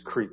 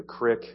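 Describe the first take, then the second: First: Creek with a long ee vowel. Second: Crick with a short i, rhyming with brick; crick, short vowel in place of long ee; local pronunciation. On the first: Shown as a demonstration. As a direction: correct it to creek, rhyming with week. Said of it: "it's a long E". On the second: Retold or imitated. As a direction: say crick the Ohio Valley way. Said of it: "You call a creek a crick".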